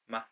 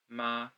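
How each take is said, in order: First: It is short and light with no tone. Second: It is said with the first tone. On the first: "this character has no tone. So it's very short, very light" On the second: "this character is the first tone"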